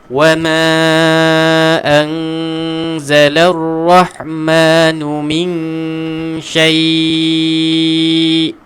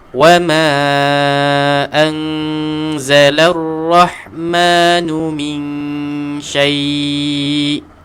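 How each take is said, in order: First: The final vowel is held for a long time. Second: The final vowel is held at medium length. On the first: "Nak baca enam boleh juga" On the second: "Empat harakat"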